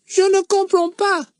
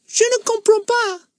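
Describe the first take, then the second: First: Put-on silly, much higher boy's voice. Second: Put-on silly, much higher boy's voice, twisting his cap. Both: A narrator's reading. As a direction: pipe it up like a silly schoolboy. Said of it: "in a rather silly, high voice".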